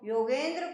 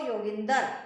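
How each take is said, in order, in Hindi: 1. बीच का स्वर 'e' है। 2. बीच का स्वर 'i' है।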